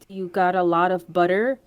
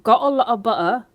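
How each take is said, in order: First: The t sounds are clearly pronounced. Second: The t sounds are dropped, London style.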